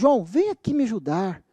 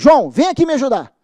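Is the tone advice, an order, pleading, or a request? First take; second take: pleading; order. First: It sounds like desperate, begging pleading. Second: It sounds like a firm, commanding order. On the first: The listener is being begged to help. "Em tom de súplica" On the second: The listener is being commanded to help. "em tom de, de, de ordem"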